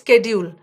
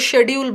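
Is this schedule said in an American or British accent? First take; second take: American; British. First: It begins with a sk sound, American style. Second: It begins with a sh sound, British style. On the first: "American दे से स्केड्यूल" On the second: "British है वो शेड्यूल बोलते हैं"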